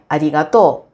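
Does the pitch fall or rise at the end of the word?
rises. The pitch rises at the end. This is the Kansai way of saying it. "em Kansai seria arigato"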